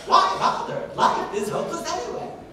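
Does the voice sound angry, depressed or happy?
happy. Higher pitched, lively and varied, sounding happy. "happiness ... higher sounds and also more variation"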